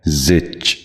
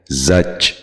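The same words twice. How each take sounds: First: زچ with a short i or e, "zich"; correct زچ. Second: زچ with short a, "zach"; mispronounced زچ. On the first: Teacher modelling for viewers, زچ said as "zich". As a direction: front the vowel in زچ, zich rather than zach. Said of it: "درست تلفظ ہے". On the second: Teacher showing viewers a common mistake, زچ said as "zach". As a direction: say زچ with an a vowel. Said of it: "غلط تلفظ ہے". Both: Shown as a demonstration.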